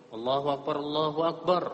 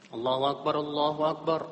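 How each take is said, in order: No difference in how they are said.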